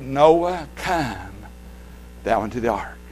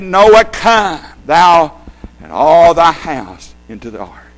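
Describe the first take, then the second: First: A gentle, low come; Noah, come said softly, inviting; stress on COME. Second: Noah, COME thou, with come stressed. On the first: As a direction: come dropped low and soft. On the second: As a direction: COME pressed hard after Noah. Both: Shown as a demonstration. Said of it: "Why are you stressing that?".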